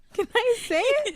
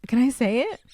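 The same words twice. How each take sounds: First: Giggling through the words; laughing. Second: Said in the usual way. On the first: Real, not acted. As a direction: ask it while laughing. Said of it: "I'm wheezing".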